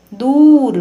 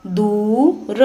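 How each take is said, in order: First: दूर with the ऊ held long, higher and louder. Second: Said in the usual way. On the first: Shown as a demonstration. Teacher repeating दूर for pupils, long and loud. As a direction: call out the ऊ of दूर. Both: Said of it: "लंबे समय तक और ऊंचे स्वर में पढ़ा".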